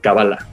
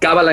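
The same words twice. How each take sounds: First: The stress is on the last syllable. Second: The stress is on the first syllable. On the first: This is the Hebrew pronunciation. "en hebreo es como se pronuncia" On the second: This is the Spanish pronunciation. "en español porque el acento ... cae en la primera A"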